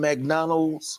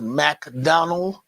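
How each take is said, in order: First: The name ends with an S sound. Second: The name ends without an S sound.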